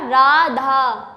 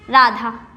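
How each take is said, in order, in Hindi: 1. स्वर को तीन गुना लंबा खींचा गया है। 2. स्वर सामान्य छोटी लंबाई में बोला गया है। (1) "उच्चारण में तीन गुना समय लगता है" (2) "यहाँ पे हम बोलते हैं इसे राधा"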